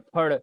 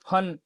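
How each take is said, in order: First: The final nasal is a retroflex n. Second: The final nasal is a plain dental n. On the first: The speaker calls it right. "शुद्ध क्या होता है" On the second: The speaker calls it wrong. "फन क्या है, गलत है"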